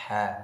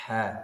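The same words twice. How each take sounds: The two takes are said the same way.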